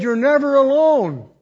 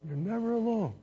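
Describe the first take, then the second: First: Preacher declaring the promise full voice; proclaimed. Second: Much softer, let it sink in; quiet repeat to the congregation; tender murmured echo of the promise; hushed echo. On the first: Acted. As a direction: proclaim it loud and high. Quoting God's promise aloud. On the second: Real, not acted.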